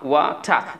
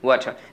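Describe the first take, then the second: First: The final r sound is dropped, British style. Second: The final r sound is pronounced.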